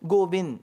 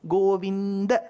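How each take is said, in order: First: The final vowel is dropped, ending on d. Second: The final a vowel is clearly pronounced. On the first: The speaker calls it wrong. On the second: The speaker calls it right. "That A should come"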